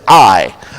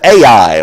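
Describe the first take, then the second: First: The word sounds just like 'eye'. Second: The word does not sound like plain 'eye'. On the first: The speaker calls it right. "You pronounce it I" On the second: The speaker calls it wrong. "some people pronounce that Ai"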